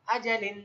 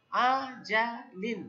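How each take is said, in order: First: Said in the usual way. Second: আজালিন drawn out slowly, syllables held; teacher modelling আজালিন slowly; slow model word. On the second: Shown as a demonstration. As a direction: stretch আজালিন for learners. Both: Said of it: "কি উচ্চারণ?".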